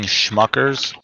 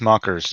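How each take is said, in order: First: The word begins with an 'sh' sound. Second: The word begins with a plain 's' sound. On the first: The speaker calls it wrong. "You're saying Schmuckers" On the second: The speaker calls it right. "It's Smuckers"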